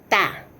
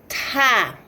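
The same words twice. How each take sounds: First: The consonant is plain, with no extra air. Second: The consonant has a strong puff of air.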